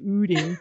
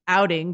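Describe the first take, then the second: First: The first vowel is the Minnesota 'oo' sound. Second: The first vowel is said as in 'out'.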